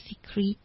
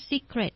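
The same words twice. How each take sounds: First: "secret" misread as "see-kreet"; mispronounced secret. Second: Said in the usual way. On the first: Shown as a demonstration. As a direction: say "secret" with a long ee in the last syllable, rhyming with street. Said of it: "น้องเนี่ยเข้าใจมาตลอดว่า". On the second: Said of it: "คำว่า secret ที่แปลว่าความลับ".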